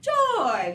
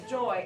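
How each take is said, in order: First: High, drawn-out burst of joy; gleeful, louder exclamation; joyful. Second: Said in the usual way. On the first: Pretend. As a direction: sing it out with delight. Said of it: "like a positive emotion".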